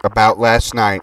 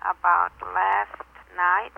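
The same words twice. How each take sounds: First: Slow, deliberate dictation; dictating. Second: Slow, soft, writing it down; repeating while writing. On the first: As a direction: spell out the message for writing down. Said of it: "Here's the info". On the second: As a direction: murmur it back as you write. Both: Acted.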